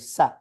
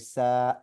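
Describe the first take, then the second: First: The vowel is short. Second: The vowel is long and drawn out. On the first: "if it was just the seen and the a, I would say sa" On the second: "because there's a alif, I'm going to say sa"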